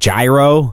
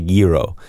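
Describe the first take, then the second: First: The word begins with a J sound. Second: The word begins with a Y sound. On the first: This is the way the server expected it to be said. "the lady was like, you mean gyro?" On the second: This is the Greek-style way of saying it. "surely here I could say gyro"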